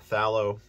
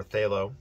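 First: "phthalo" with a short A, THAL-oh; "phthalo" as THAL-oh, short flat A vowel; first pronunciation variant. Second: "phthalo" with a long A, THAY-loh; "phthalo" starting like "they", then loh; second pronunciation variant. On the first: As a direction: say "phthalo" to rhyme with shallow. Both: Shown as a demonstration. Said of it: "however you wanna pronounce it".

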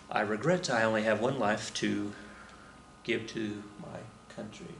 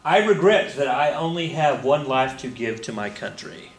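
First: Softer, trailing solemn repeat; solemn quiet. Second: Said in the usual way. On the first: Retold or imitated. Repeating a spy's last words softly, solemn. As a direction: let the last words fade out with reverence. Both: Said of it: "the standard line is".

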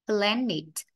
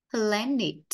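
No difference in how they are said.

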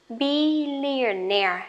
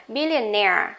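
First: Billionaire stretched slowly, stress on -naire; slow model word. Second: Billionaire said quickly, stress on -naire; normal speed word. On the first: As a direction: draw out billionaire for the class. (đọc chậm billionaire) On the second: (đọc Billionaire nhanh, tự nhiên) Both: Shown as a demonstration. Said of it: "đều nhấn vào chính cái âm này".

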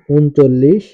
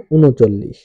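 First: ঊনচল্লিশ as written, "un-chollish", rising; spelling reading. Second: ঊনচল্লিশ as "u-no-chollish", falling; spoken pronunciation. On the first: Teacher reads out a number's spelling, ঊনচল্লিশ as "un-chollish". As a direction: say ঊনচল্লিশ with n straight into ch. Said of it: "বানান". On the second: Teacher demonstrates pronunciation, ঊনচল্লিশ as "u-no-chollish". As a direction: add an o after the n in ঊনচল্লিশ. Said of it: "উচ্চারণ". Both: Shown as a demonstration.

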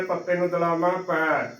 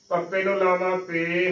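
First: Final ਪੈ with a wide ai sound; open AI vowel. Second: ਪੇ with a narrow ay sound; closed E vowel. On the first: Teacher contrasting two vowel signs, ਪੈ with open ai. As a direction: say ਪੈ on open ai, not e. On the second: Teacher contrasting two vowel signs, ਪੇ with closed e. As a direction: say ਪੇ on closed e, not ai. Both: Shown as a demonstration. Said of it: "ਲਾਵਾਂ ਦੇ ਨਾਲ ਉਚਾਰਨ".

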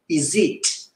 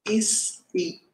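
First: IS IT joined as one word, "izzit"; linked sound. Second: Said in the usual way. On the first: Shown as a demonstration. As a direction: link IS to IT with a Z sound. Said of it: "Como se fosse esse som de Z". ("Is it?" junto, com som de Z) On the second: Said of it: "aqui a gente pode pronunciar assim".

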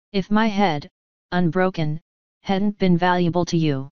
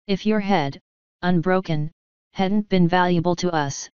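First: My lifted and leaned on, the rest even; stress on my. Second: Your lifted and leaned on, the rest even; stress on your. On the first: Boranova turning Morrison's words back on him, stressing my. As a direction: put the weight on "my" in "If my head". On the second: Boranova answering Morrison in kind, stressing your. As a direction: put the weight on "your" in "If your head". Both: Acted. Repeats phrase swapping my/your.

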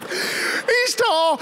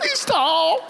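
First: High falsetto mock broken by laughter; teasing relatives crack up while mimicking, high voice; laughing mockery. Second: High squeaky mock of a frightened boy; much higher mock child voice; mocking the kid. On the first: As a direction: laugh through the mocking squeak. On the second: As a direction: ham it up in falsetto. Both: Relatives mocking scared kid.

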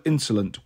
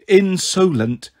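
First: Said in the usual way. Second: "Insolent" slowly, syllable by syllable, with a full O; sounded-out correction. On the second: A narrator's reading. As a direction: stretch "Insolent" to show the O, pitched higher. Teacher sounds out the correct spelling.

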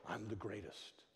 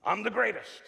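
First: Quiet, low boast; understated, hushed self-confidence; self-confident mantra. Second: Loud, raised-pitch boast; big cocky declaration; self-confident mantra. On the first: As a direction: say the boast softly, almost to yourself. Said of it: "what was Muhammad Ali's little mantra". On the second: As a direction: proclaim it boldly, full of self-belief. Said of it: "He was the epitome of self-confidence". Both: Acted.

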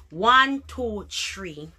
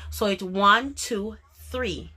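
First: "three" said as "tree", no h sound; Jamaican three. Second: "three" with a clear th sound; proper three. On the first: Jamaican vlogger showing how locals count, "three" as "tree". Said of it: "oftentimes we say". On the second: Vlogger showing the correct way to say "three". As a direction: give "three" its full th sound. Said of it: "me understand it is three". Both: Shown as a demonstration.

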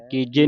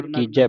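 First: ਕੀਜੇ ending in a close "jay"; close final vowel. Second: ਕੀਜੈ ending in an open "jai"; open final vowel. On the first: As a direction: say ਕੀਜੇ as "keejay", single-lavan sound. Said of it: "ਕੀਜੇ ਨਹੀਂ ਪੜਨਾ". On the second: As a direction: say ਕੀਜੈ as "keejai", dulavan sound. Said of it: "ਕੀਜੈ ਪੜਨਾ". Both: Shown as a demonstration.

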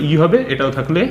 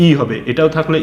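The two takes are said the same way.

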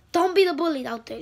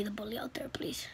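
First: Loud, high angry shout; mad yelling. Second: Soft whispered request; whispered plea. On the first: Kid vlogger shouting at bullies, really mad. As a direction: yell it at the bullies. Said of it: "now I'm getting so mad". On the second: Kid ending his vlog, whispering to viewers. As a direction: hush it into a plea. Sudden unvoiced closing plea. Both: Real, not acted.

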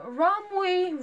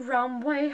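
First: Romwe said with an "ee" ending, as ROM-wee; pronounced Rom-wee. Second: Romwe said with an "ay" ending, as ROM-way; pronounced Rom-way. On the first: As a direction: end Romwe on a long "ee". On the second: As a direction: end Romwe on an "ay" sound. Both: Shown as a demonstration. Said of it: "however you pronounce it".

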